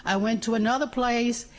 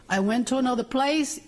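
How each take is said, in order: Both takes have the same delivery.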